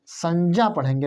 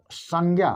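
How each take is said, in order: First: संज्ञा said as "sanjya", half j joined to ya; correct conjunct reading. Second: संज्ञा said the usual way as "sangya", with g and y; the everyday "sangya" sound for संज्ञा, shown as wrong; wrong common reading. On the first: Teacher gives students the correct reading, careful "sanjya". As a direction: say संज्ञा with j and ya, not g, teacher demo. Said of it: "ना कि संज्ञा". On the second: Teacher shows the reading students should drop, common "sangya". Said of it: "तो इसको संज्ञा नहीं पढ़ेंगे". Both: Shown as a demonstration.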